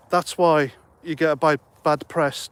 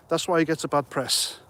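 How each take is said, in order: First: Real tongue-tripped false start before "bad press"; stuttering. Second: Said in the usual way. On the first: Real, not acted. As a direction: stumble on "bi-", then restart on "bad press". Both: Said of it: "I'm still stuttering".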